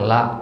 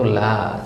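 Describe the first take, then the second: First: The word ends with a sharp glottal catch. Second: The word ends on an open, trailing vowel. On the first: The speaker calls it wrong. "seolah-olah ada hamzahnya di belakang" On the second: The speaker calls it right. "Yang benar itu la"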